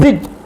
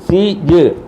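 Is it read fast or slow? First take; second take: fast; slow. First: It is read quickly as one unit. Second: It is read slowly, sound by sound.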